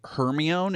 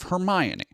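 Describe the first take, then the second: First: The name is sounded out as it is spelled. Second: The name is said in its usual spoken form. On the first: The name was only read in a book. The speaker calls it wrong. "if you sound it out phonetically" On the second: The name was heard spoken aloud. The speaker calls it right. "how you actually say it"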